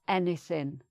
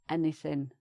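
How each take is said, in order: Both takes have the same delivery.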